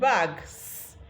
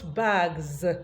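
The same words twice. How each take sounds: First: The word ends with a voiceless hissing s. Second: The word ends with a voiced buzzing z. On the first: The speaker calls it wrong. "instead of saying bags" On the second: The speaker calls it right. "it becomes bags... so that is why we have Z"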